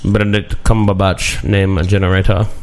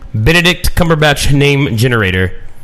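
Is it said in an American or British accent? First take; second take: British; American. First: It is said in a put-on British accent. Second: It is said in his normal American accent.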